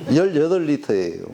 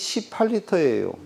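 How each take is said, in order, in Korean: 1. 이 숫자는 예사소리로, 힘을 빼고 부드럽게 발음해요. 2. 이 숫자는 된소리로, 힘을 주어 발음해요.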